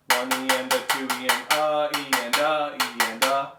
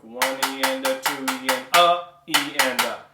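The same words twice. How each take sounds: First: Loud rhythmic count, each "a" running on into "E"; flowing count. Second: Loud rhythmic count, "a" after "two E and" punched short; wrongly stopped count. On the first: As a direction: chant it evenly, linking "a" to "E" without a stop. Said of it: "It should flow". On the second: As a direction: chant it, jabbing that middle "a" so the flow stops. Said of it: "do not downstroke". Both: Shown as a demonstration.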